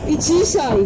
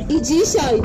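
No difference in how they are said.

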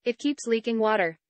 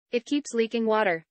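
The two takes are said the same way.

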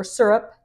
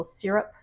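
First: "syrup" said as SUR-up; alternative pronunciation. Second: "syrup" said as SEER-up; first pronunciation. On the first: Vlogger offering viewers the other pronunciation, "syrup" as SUR-up. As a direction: say "syrup" to rhyme with "stirrup" or "fur-up", SUR-up. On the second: Vlogger offering viewers one pronunciation, "syrup" as SEER-up. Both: Shown as a demonstration. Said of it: "depending on how you like to pronounce it".

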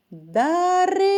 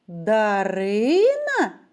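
First: Дарина! called high and loud; Дарина! called out, second syllable stressed; calling out. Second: Дарина? slow, as a question; asking tune. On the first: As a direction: call Дарина! across the room. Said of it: "Або кличу її". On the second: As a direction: ask Дарина? stretching the name. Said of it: "запитую". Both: Shown as a demonstration.

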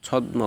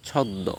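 First: ছদ্ম with the m sounded, chhawd-mo; wrong pronunciation. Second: ছদ্ম with doubled d, chhawd-do; correct pronunciation. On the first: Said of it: "বা ছদ্ম বলে". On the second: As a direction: silence the m in ছদ্ম. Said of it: "সঠিক উচ্চারণ হচ্ছে". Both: Shown as a demonstration.

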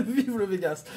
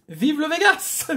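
First: Softer, laughing it out. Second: High, bright mock triumph; excited cheer. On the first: Real, not acted. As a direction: say it through a laugh. Repeats through laughter. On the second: Cheers the scratch card.

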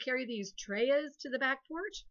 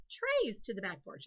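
First: "treyas" said as two syllables, TRAY-uhs; wrong pronunciation. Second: "Trays" said as one plain syllable, like trays; right pronunciation. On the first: Teacher showing pupils the wrong plural, treyas as TRAY-uhs. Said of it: "That's crazy". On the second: Teacher giving the pupils the correct plural, plain trays. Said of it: "That's right". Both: Shown as a demonstration.

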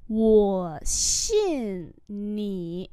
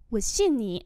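First: Very drawn-out separate words; slow model reading. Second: Said in the usual way. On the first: Shown as a demonstration. Teacher modelling "I believe you" for learners, very slowly. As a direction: stretch each word with its tone.

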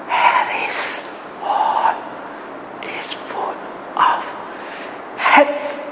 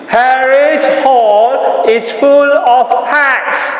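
First: Soft breathy whisper. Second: Loud, high and slow; loudly. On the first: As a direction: whisper it to the class. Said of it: "Whisper it". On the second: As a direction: call it out big to the class. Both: Shown as a demonstration.

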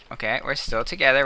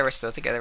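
First: Said in the usual way. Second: Breathy whisper to herself. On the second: Real, not acted. Repeats the words hushed.

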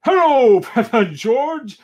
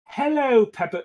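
First: High, loud, jolly hail; booming Santa cry. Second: Tentative first go at a Santa call; Santa greeting. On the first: Santa greeting Peppa and George, loud hearty cry. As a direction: call out big like Santa at the door. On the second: Santa greeting Peppa, high but restrained call. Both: Acted. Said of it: "cries Santa".

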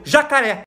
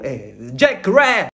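First: Said in the usual way. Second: Jacaré bent into English, "jake-RAIR", slow and low; drawn-out mock English accent on jacaré; improvised English accent. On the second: Swimmer improvising English for a friend, jacaré in a fake English accent. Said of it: "Improvisei e falei assim".

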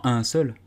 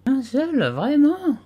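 First: Said in the usual way. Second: Much higher, offended disbelief; indignant. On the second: A narrator's reading. Dormouse indignant at Alice's doubt, high and offended. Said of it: "d'un ton indigné".

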